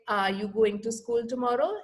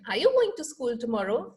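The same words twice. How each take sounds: First: The voice stays flat without rise and fall. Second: The voice rises and falls with rhythm.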